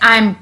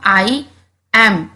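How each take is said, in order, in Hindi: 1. यह एक संक्षिप्त शब्द की तरह बोला जाता है। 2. यह दो अलग शब्दों की तरह बोला जाता है। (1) "ए थोड़ा सा साइलेंट हो जाता है" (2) "जब हम आई एम इस तरह इसको पढ़ते हैं"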